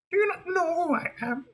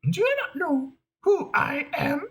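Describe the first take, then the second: First: High, quieter piggy diva retake; haughty diva. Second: High, whiny piggy diva, near tears; a star who can't believe she's not recognised; offended diva. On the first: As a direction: demand recognition, lofty and cool. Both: Acted. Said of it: "we want to go a little like this".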